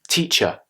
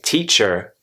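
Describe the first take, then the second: First: The word ends with a weak uh sound. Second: The word ends with a clear R sound. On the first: The speaker calls it right. "I say teacher" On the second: The speaker calls it wrong. "I don't say teacher"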